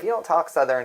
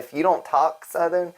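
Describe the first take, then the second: First: It is said in the speaker's ordinary accent. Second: It is said in a put-on Southern accent.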